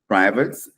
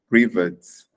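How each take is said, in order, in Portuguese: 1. É dito com sotaque americano. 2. É dito com sotaque britânico. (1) "No inglês americano" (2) "No inglês britânico"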